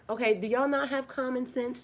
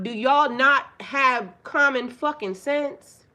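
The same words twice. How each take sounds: First: Said in the usual way. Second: Loud, slow, exasperated demand; angry outburst. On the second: Real, not acted. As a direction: hammer the question at the men, slowly. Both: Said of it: "Don't say it like that".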